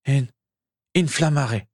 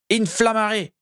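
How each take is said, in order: First: Stammered spell. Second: Forceful spell. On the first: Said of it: "bredouilla-t-il". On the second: Feverish wizard casting "Inflammare" again, high and forceful. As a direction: fling out "Inflammare" with all your strength. Spell cast with more power. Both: A narrator's reading.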